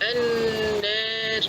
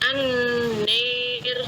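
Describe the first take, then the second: First: The long vowel sits between 'a' and 'e'. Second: The long vowel is fully like 'e'. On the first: The speaker calls it right. "taklil itu kita bacanya antara fathah dan imalah" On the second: The speaker calls it wrong. "Kalau an-nir seperti vokal E itu berarti imalah"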